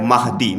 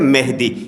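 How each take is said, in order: First: The first vowel sounds like 'a'. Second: The first vowel sounds like 'e'. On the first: This is the original Arabic form of the word. "असल लफ्ज़ है महदी, मीम पे ज़बर" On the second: This is the local Urdu way of saying it. "ये उर्दू तलफ़्फ़ुज़ है"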